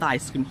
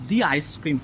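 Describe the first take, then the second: First: 'The' is pronounced with a short 'uh' vowel. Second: 'The' is pronounced with a long 'ee' vowel. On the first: The speaker calls it wrong. "দ্য ice cream হবে না" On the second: The speaker calls it right. "দি ice cream হবে"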